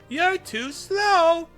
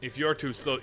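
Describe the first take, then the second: First: It is said in a Sonic the Hedgehog voice. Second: It is said in his normal voice.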